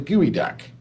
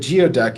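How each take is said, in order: First: The first part sounds like 'gooey'. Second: The first part sounds like 'gee-oh'. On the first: The speaker calls it right. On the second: The speaker calls it wrong.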